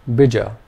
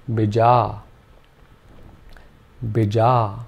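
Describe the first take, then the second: First: Bija with short i and short a; short vowels. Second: Bija with a short i and a long drawn-out a; long final vowel. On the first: Teacher showing short vowels, bija said clipped. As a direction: clip both vowels of bija. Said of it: "Both the vowel sounds are short". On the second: Teacher showing the long second vowel in bija. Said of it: "made the second vowel sound long". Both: Shown as a demonstration.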